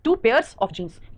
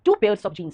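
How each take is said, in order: First: "two pairs of jeans" drawn out very slowly with pairs stressed; slow stressed demo. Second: Said in the usual way. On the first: Shown as a demonstration. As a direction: drag "pairs" out so the plural s lands. (बहुत धीरे, "pairs" पर ज़ोर) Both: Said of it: "pair नहीं, pairs".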